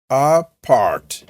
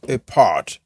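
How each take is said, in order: First: "Apart" drawn out with an open "ah" at the start; careful, lengthened "Apart", first vowel given full weight. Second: "apart" with a short, reduced first vowel, "uh-part"; quicker "apart", opening vowel weakened; alternative pronunciation. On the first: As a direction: stretch "Apart" into two full syllables, ah-part. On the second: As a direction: say "apart" lightly on the first syllable, weight on part. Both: Shown as a demonstration. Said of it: "Ou on va dire apart".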